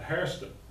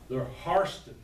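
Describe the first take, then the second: First: The name is said with an 'air' sound. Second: The name is said with an 'ar' sound. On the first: The speaker calls it wrong. "are not" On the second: The speaker calls it right. "They pronounce it differently"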